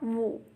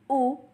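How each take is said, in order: First: It starts with a w glide before the vowel. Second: It starts directly with the vowel, no glide. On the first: The speaker calls it wrong. "and not woo" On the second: The speaker calls it right. "Has a pronunciation of U"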